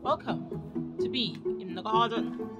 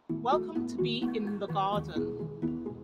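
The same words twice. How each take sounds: First: The greeting sounds harsh and aggressive. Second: The greeting sounds soft and gentle.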